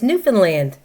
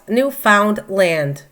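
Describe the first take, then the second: First: The parts are not pronounced as written. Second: Every part is pronounced just as written. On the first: The speaker calls it right. "It's no, no, no. It's Newfoundland" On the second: The speaker calls it wrong. "I would call it Newfoundland, just the way it's spelt"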